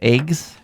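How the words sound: The word has a northeastern US vowel. "my northeastern U S pronunciation of eggs"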